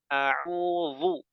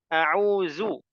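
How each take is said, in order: First: The middle consonant is thick and emphatic. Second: The middle consonant is a z sound. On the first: "seperti dha, salah" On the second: "jadi zai"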